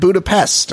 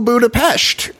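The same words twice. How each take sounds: First: The final syllable ends with a plain 'st' sound. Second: The final syllable ends with a 'sht' sound. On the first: This is the common pronunciation heard on the show. "I only heard Budapest on the show" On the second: This is the preferred local pronunciation. "that is the preferred pronunciation as far as I know"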